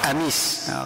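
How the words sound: The word begins with a glottal stop.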